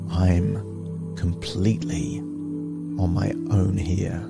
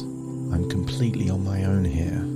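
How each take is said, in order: First: It is said slowly in a confident tone. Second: It is said fast in a nervous tone. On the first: The situation feels empowering. The speaker calls it right. "with confident tonality, said slowly and surely" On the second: The situation feels threatening. The speaker calls it wrong. "fast with a nervous tonality"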